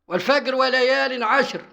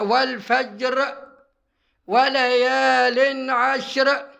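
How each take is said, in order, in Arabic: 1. يُقرأ بالنطق المصري القاهري. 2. يُقرأ بالنطق العربي الفصيح. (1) "طب هو بتاع القاهرة يقراها ازاي؟ يقول والفجر بقى" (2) "لو نقرأ مثلا يقول"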